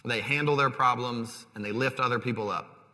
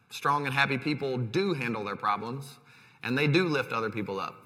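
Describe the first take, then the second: First: Said in the usual way. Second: Emphatic "do" in both clauses; stress on "do". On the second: Shown as a demonstration. Preacher conceding that strong people cope, with stress on "do". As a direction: lean on "do" each time, affirming it.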